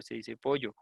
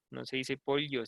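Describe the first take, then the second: First: Pollo with ll as y, "PO-yo"; corrected yeísta pronunciation. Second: Pollo with an "ly" sound, "POL-yo"; mimicked ll pronunciation. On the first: Retold or imitated. Listeners correcting her, pollo given as "PO-yo". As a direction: say pollo with no l sound, "PO-yo". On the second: Amused listeners correcting her, pollo echoed as "POL-yo". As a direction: quote the disputed pollo as "POL-yo".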